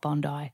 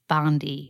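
First: It is pronounced the Australian way. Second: It is pronounced the American way. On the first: The speaker calls it right. "not Bondi" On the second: The speaker calls it wrong. "Americans call it Bondi"

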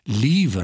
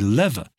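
First: The first vowel is long. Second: The first vowel is short. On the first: This is the British way. "We say lever" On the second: This is the American way. "they say lever"

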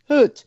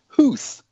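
First: The name ends in a 't' sound, like 'hurt'. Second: The name ends in a 'th' sound, like 'hooth'. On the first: This is how the person's name is really said. The speaker calls it right. "It's pronounced Hurt" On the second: This is how commentators commonly say it. The speaker calls it wrong. "Hoedt is pronounced Hooth, according to everybody"

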